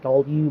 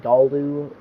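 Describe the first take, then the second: First: The L is not clearly said before the U. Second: The L is clearly said before the U. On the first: The speaker calls it wrong. "I pronounce it wrong, saying it Galu" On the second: The speaker calls it right. "it's actually Galu. You put the L and then the U"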